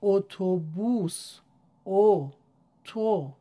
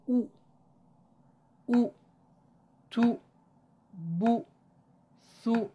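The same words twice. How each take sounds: First: "اتوبوس" slow and stretched, "او" loud and long; long Persian vowel demo. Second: Short rounded-lip "او، تو، بو، ثو"; short Quranic damma. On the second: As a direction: clip each syllable short, lips rounded. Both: Shown as a demonstration.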